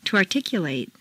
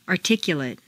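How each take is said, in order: First: "articulate" ending in long "-LATE"; full A ending. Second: "Articulate" ending in weak "-lut"; reduced ending. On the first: Teacher models verb "articulate" with full final A. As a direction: open out the last A of "articulate". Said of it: "it's a full A sound". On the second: Teacher models adjective "Articulate" with reduced final vowel. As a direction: shrink the last vowel of "Articulate". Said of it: "in an adjective is completely reduced". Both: Shown as a demonstration.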